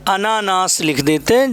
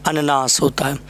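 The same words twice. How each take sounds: First: अनानास with long second आ; wrong form. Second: अननास said short and low; correct form. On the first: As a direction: say अनानास as the mistake. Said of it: "wrong है, अनानास नहीं". (गलत उच्चारण अनानास) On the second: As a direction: say अननास plainly, short first syllables. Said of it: "अनानास नहीं". (सही उच्चारण अननास) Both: Shown as a demonstration.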